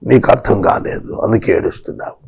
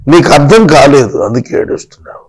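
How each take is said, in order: First: God gently telling weeping Hagar she doesn't understand, low and soft. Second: Said in the usual way. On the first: Shown as a demonstration. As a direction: speak it low and softly, like God consoling. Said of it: "repeated line, second take plain". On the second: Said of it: "repeated line".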